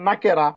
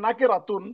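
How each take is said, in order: First: The word stops without the final 'tun' syllable. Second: The word ends with a final 'tun' syllable. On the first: The reader pauses at the word. "যদি ওয়াকফ করেন তাহলে বলবেন নাকেরা" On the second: The word is read in full without stopping. "যদি পুরো উচ্চারণ করেন তাহলে বলবেন নাকেরাতুন"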